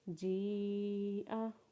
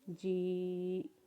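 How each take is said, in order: First: The word ends on an open 'a' vowel. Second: The word ends abruptly without a final vowel. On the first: "हमज़ा के ऊपर ज़बर पढ़ेंगे" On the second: "वक्फ के बाद हमज़ा को साकिन पढ़ेंगे"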